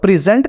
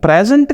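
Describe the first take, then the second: First: The stress is on the second syllable. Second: The stress is on the first syllable. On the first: It is a verb meaning to give a gift. "Present का मतलब है to give a gift" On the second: It is a noun meaning a gift. "Present का मतलब है gift"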